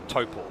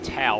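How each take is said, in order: First: The first syllable has an 'oh' vowel. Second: The first syllable has an 'ow' vowel. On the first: The speaker calls it right. "the correct Kiwi pronunciation is of course Topor" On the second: The speaker calls it wrong. "T A U sort of has a, an ow sound"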